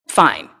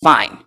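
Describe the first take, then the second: First: A lower, grudging "Fine." from the lion. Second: "Fine." dropped much lower, like a big lion giving in; deep grudging lion. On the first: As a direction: give in like a proud lion, a bit lower. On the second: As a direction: sink the word "Fine." down low, reluctant. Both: Retold or imitated. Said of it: "Like, Okay".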